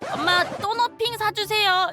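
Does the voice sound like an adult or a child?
child. It is said in a childlike voice. This is how a child would ask. The speaker calls it right. "그 발음 그 특유의 발음"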